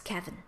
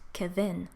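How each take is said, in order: First: The stress is on the first syllable. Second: The stress is on the second syllable. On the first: The speaker calls it right. "The first vowel in your name is stressed" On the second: The speaker calls it wrong. "I mispronounced your name completely by misplacing the stress"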